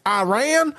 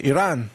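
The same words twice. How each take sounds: First: Mocking Southern drawl, Iran as AH-RAY-AN; high, exaggerated Southern twang on Iran; Lindsey Graham. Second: Iran as ee-RAHN; Iranian pronunciation. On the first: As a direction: send up a Southern politician's accent. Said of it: "people like Lindsey Graham, they're like". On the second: Shown as a demonstration. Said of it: "I try to say Iran".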